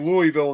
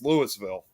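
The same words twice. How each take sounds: First: The s sound in the middle is silent. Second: The s sound in the middle is pronounced. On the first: This is how the Kentucky city is named. "maybe Louisville in Kentucky" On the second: This is how the Illinois town is named. "over here it's Louisville"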